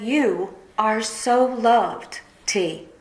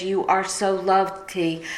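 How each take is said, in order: First: Slow, tender, each word held; tender quote. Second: Said in the usual way. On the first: Retold or imitated. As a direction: say it slowly like a gentle reassurance. Friend's text quoted again.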